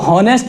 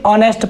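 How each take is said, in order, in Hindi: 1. शब्द की शुरुआत h ध्वनि से होती है। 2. शब्द की शुरुआत स्वर ध्वनि से होती है। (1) "इसको हॉनेस्ट नहीं पढ़ेंगे" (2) "इसे ऑनेस्ट पढ़ेंगे"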